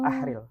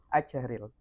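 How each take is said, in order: First: A plain h sound follows the first vowel. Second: A plain k sound follows the first vowel. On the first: "memanggil nama saya ada C-nya hilang" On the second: "C-nya nggak hilang, H-nya hilang"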